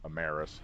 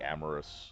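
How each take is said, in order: First: The name does not sound like 'amorous'. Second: The name sounds like the word 'amorous'. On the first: This is how most other people say it. The speaker calls it right. "everybody I see on YouTube is saying it Amaris" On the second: This is how the speaker always said it. The speaker calls it wrong. "I always said it Amorous"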